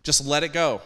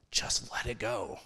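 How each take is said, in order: First: Just let it go, now voiced and louder. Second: Just let it go, breathed without voice; whispered. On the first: Preacher repeating the first step to his listeners, louder. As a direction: ring it out after the whisper. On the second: Acted. Preacher whispering the first step to his listeners. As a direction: whisper it to the congregation like a secret. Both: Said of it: "Number one".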